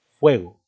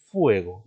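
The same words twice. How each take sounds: First: Said in the usual way. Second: Fuego broken as FU-e-go, stress on the u; wrong hiatus pronunciation. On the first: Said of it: "decimos fuego". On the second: Shown as a demonstration. Teacher showing what we don't say, u stressed separately. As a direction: stretch the u in fuego apart from the e. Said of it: "pero no decimos fuego".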